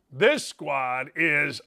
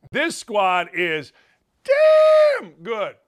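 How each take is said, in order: First: Drawn out slowly. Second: Slow build, then DAMN good shouted high and loud. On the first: Retold or imitated. Sets up contrast with damn good. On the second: Real, not acted. Host loudly praising the team to viewers, drawn then shouted.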